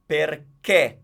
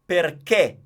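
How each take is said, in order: The two takes are said the same way.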